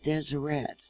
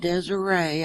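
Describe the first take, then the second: First: The final T sound is clearly pronounced. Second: The final T sound is left off. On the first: The speaker calls it right. "You sound out the T on the end" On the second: The speaker calls it wrong. "And it's not Desiree. I made that same mistake myself"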